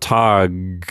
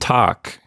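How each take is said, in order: First: The final consonant is a voiced G. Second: The final consonant is a devoiced K-like sound. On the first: The speaker calls it wrong. "tag with a G sound with your vocal cords vibrating" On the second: The speaker calls it right. "it's going to be devoiced and sound really more like a K"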